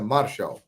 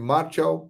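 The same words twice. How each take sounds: First: The name is pronounced with French sounds. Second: The name is read out as it is spelled. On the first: "a pronúncia francesa é Martial" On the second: "Se escreve Martial"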